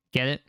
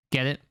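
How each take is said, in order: Both takes have the same delivery.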